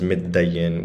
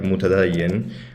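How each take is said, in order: First: The opening syllables are shortened into middayin. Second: Every syllable is said in full, mu-ta-dayin. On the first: "which would be the dialect version" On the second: "how it's like the standard Arabic pronunciation"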